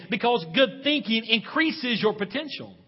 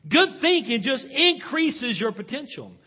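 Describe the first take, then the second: First: Said in the usual way. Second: Louder and slower, each word leaned on; slow emphatic repeat. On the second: Shown as a demonstration. Preacher repeating his point to the church, slow and emphatic. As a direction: press the point home to the congregation.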